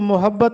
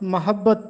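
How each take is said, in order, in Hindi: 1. पहला स्वर 'a' वाली आवाज़ नहीं है। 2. पहला स्वर 'a' वाली आवाज़ है। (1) "इसको मोहब्बत नहीं पढ़ना" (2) "मीम पर ज़बर के साथ मोहब्बत पढ़ना है"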